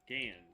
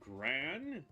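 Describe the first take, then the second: First: The name is said without an r sound. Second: The name is said with an r sound. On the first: The speaker calls it right. "Gan, Gan, not Gran" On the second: The speaker calls it wrong. "not Gran"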